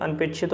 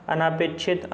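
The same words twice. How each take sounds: First: अनपेक्षित with a short a after the n; correct short vowel. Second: अनापेक्षित with a long aa after the n; wrong form with long aa. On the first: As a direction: keep अनपेक्षित short, an-pek-shit. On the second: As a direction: stretch the second vowel of अनापेक्षित to aa. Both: Shown as a demonstration. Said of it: "अनपेक्षित होता है".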